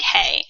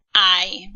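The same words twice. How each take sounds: First: "hey" with the H sounded; English H sound. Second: "I" with no H, like English eye; silent H. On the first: Teacher shows Spanish learners the misreading, "hey" with sounded H. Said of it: "it's not pronounced like hey". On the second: Teacher models the Spanish verb for learners, "I" with silent H. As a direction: say "I" as one open vowel gliding to ee. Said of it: "we pronounce it". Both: Shown as a demonstration.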